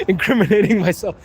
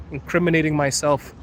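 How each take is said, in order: First: Tickled, livelier echo after a laugh; real amusement just after laughing; amused repeat. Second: Said in the usual way. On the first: Real, not acted. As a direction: repeat it as a joke on yourself.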